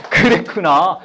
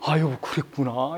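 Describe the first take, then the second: First: Said in the usual way. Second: Slow, soft, low and heartfelt; a calm, genuine "I see, dear"; sincere empathy. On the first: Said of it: "웃으면서 그러면 안 되고". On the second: Shown as a demonstration. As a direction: say it with real sincerity, gently. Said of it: "이렇게 진정돼".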